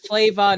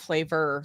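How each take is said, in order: First: The word ends in an open 'uh' sound. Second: The word ends in an 'er' sound. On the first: The speaker calls it right. "It's Flava" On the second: The speaker calls it wrong. "not flavor"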